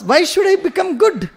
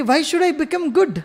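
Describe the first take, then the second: First: "Why should I become good?" drawn out slowly and high, stress falling on good; slow, high emphatic question. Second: "Why should I become good?" said slowly and a little high, falling on good; slow emphatic question. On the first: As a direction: stretch every word, lift the pitch, land hard on good. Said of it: "her question was". (धीमा, ऊँचा, "good" पर ज़ोर देकर सवाल) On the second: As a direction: draw the words out, land on good. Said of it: "अब ये बच्ची कह रही है कि". (धीमा, "good" पर ज़ोर देकर सवाल) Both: Shown as a demonstration.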